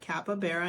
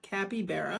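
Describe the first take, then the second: First: The vowel after the p is a weak uh. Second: The vowel after the p is a full vowel. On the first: The speaker calls it right. "is actually said capybara" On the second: The speaker calls it wrong. "and not capybara"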